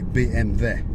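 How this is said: The letter names are said the Russian way. "if you come from Russia ... they say B M W"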